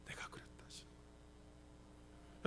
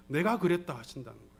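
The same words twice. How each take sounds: First: Barely audible, voiceless whisper. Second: Said in the usual way. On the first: Shown as a demonstration. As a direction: let it out as a very faint whisper. Repeats God's words hushed for effect. (아주 작게 속삭이듯)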